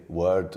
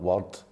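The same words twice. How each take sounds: First: "word" said with an English vowel; anglified pronunciation. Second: "word" said the local Glasgow way; Glaswegian pronunciation. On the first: Comedian showing his own accent, anglified "word". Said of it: "kind of anglified accent". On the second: Comedian showing what he doesn't say, Glaswegian "word". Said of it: "and not word". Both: Shown as a demonstration.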